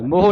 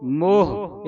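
First: ਮੋਹ as mo-ho, short vowel after h; added final vowel. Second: ਮੋਹ as long mo closing on a breath of h; plain final h. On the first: Teacher showing students what not to read, added final vowel. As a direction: sound an extra vowel ending ਮੋਹ. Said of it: "ਮੋਹ ਨਹੀਂ ਪੜ੍ਹਨਾ". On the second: Teacher showing students the correct reading, plain final h. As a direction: draw out ਮੋਹ, no vowel after the h. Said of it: "ਇਸ ਤਰ੍ਹਾਂ ਉਚਾਰਨ ਕਰਨਾ". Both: Shown as a demonstration.

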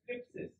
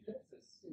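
First: Thlipsis said with a spitting th; Greek word. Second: Thlipsis whispered, unvoiced; Greek word repeated. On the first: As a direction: spit the thlipsis. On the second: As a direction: breathe Thlipsis out softly. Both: Shown as a demonstration. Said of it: "Can you say that without spitting".

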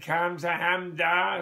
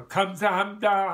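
First: Slow Korean "Kamsahamnida" in a light Jewish accent. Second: Said in the usual way. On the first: Shown as a demonstration. Speaker trying Korean thanks in a Jewish accent, lightly mock. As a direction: drawl "Kamsahamnida" out the way a Jewish uncle might, lightly. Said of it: "with a Jewish accent?". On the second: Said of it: "how would you say "Kamsahamnida".

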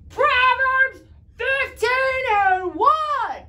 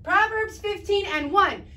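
First: Loud, slow, drawn-out call, higher; really loud. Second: Said in the usual way. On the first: Shown as a demonstration. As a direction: belt the verse reference out to the TV. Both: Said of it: "Say that really, really loud".

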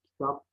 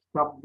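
First: Said in the usual way. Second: "Kitap" ending in b, kitab; voiced b closing "Kitap"; misspelt form. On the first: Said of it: "doğru yazılışlarını". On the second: Shown as a demonstration. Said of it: "hatalı yazılan sözcüklerin".

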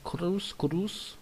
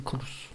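First: "Cruz" lifted at the end, softer; others' pronunciation. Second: Said in the usual way. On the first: Retold or imitated. Streamer quoting how others say it, "Cruz" with a rise. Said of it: "il y en a qui disent". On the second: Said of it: "Mais moi, c'est Cruz".

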